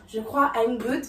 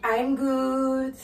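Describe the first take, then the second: First: Said in the usual way. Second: I'm good slow, stretched on good; drawn-out I'm good. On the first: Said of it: "Elle ne dit pas I'm good, c'est pas sec". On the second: Shown as a demonstration. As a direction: stretch out the good, not dry. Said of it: "c'est pas sec". (I'm good lent, allongé sur good)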